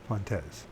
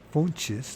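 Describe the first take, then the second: First: It is pronounced the French way. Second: It is pronounced the Brazilian Portuguese way. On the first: "It's probably uh, French" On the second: "that's Brazilian, how you say it"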